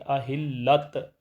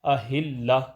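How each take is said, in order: First: The word ends with a bare t sound. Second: The word ends with a soft h sound. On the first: The speaker calls it wrong. "अहिल्लत ऐसे नहीं पढ़ेंगे" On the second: The speaker calls it right. "यहाँ इसको हा से बदल देंगे ... अहिल्ला पढ़ेंगे"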